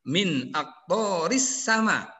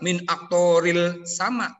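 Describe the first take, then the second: First: The l merges into a doubled s sound. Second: The l is clearly pronounced before the s. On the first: The speaker calls it right. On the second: The speaker calls it wrong. "tidak tidak dibaca min aktoril sama"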